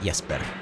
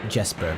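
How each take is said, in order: First: The name begins with a Y sound. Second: The name begins with a J sound. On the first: The speaker calls it right. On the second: The speaker calls it wrong.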